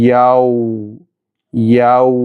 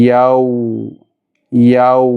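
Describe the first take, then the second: No difference in how they are said.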